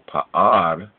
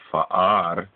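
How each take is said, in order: First: The word begins with a P sound. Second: The word begins with an F sound. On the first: The speaker calls it wrong. "which is the P" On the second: The speaker calls it right. "but actually it's an F sound"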